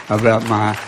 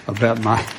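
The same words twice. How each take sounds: The two takes are said the same way.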